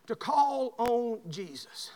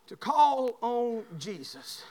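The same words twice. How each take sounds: First: Slow deliberate preaching; slow, drawn out. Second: Slow emphatic repeat. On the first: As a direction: stretch each word slowly. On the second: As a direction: lean into it, slowly. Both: Shown as a demonstration. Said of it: "I want to show you this".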